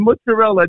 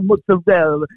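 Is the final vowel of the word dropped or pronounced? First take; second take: pronounced; dropped. First: The final vowel is fully pronounced in the word. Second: The final vowel is dropped from the word. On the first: The speaker calls it right. "It's been mozzarella" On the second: The speaker calls it wrong. "not mozzarella"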